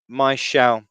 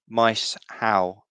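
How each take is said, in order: First: The middle sounds join as 'sh': 'my-shao'. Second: The middle sounds stay apart as 's-h': 'mice-how'. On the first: The speaker calls it wrong. "I'm pronouncing that wrongly" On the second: The speaker calls it right. "I think"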